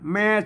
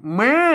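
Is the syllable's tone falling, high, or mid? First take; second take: mid; high. First: The syllable is said on a level mid tone. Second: The syllable is said with a high tone. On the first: "แม่สามัญ" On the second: "เสียงตีก็ได้"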